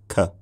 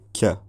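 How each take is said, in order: First: A plain k released from the soft palate. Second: A k with a slight y sound after it. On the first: "K is normally pronounced with the body of the tongue drawn back to the soft palate" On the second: "sound like the speaker is putting a little y sound after the k"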